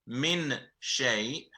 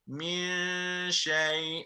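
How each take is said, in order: First: The n sound is clearly pronounced before sh. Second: The n sound is hidden, linking m to sh. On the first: The speaker calls it wrong. "instead of saying min shay" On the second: The speaker calls it right. "the way they've recited it was min shay"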